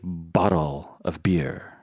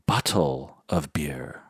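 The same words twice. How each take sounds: First: It is said in a lower-class way. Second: It is said in an upper-class way. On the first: The speaker sounds like they belong to a lower class. The speaker calls it wrong. "You don't say" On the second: The speaker sounds like they belong to an upper class. The speaker calls it right. "you say"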